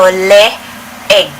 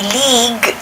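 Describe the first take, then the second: First: The double vowel is two separate sounds. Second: The double vowel is one long sound. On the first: The speaker calls it right. "it's one letter after another" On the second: The speaker calls it wrong. "you don't say league, ... like a long pronunciation"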